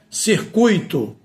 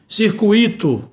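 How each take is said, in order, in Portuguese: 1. O acento cai antes do i. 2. O acento cai no i. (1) "A pronúncia é circuito" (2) "quando eu pronuncio circuito, está errado"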